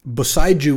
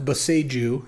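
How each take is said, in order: First: The word is pronounced in an English style. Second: The word is pronounced in a Japanese style. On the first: The speaker calls it wrong. "would be like the English pronunciation" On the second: The speaker calls it right. "it's supposed to be pronounced Boseiju, ... because it's a Japanese word"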